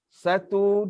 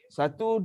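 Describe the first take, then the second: First: The counting is moderately slow and measured. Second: The counting is very fast and quick. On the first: This is the tartil recitation speed. "itu kelajuan uh, tartil" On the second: This is the tadwir recitation speed. "Paling laju"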